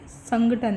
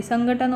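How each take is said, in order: First: संगठन said slowly as sangathan; slow down on संगठन, with retroflex th; correct form. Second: संगठन with an unaspirated t, sangatan; wrong form. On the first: Teacher shows the organization word, slow careful pronunciation of संगठन as sangathan. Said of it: "ये है अपने organisation वाला संगठन". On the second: Teacher rejects it as the word for organization, mispronouncing संगठन as sangatan. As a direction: say संगठन without the breath on its retroflex t. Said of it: "organisation वाला नहीं है". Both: Shown as a demonstration.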